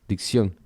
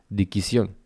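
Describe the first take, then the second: First: The double consonant is said without a vowel. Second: A vowel is inserted between the two consonants.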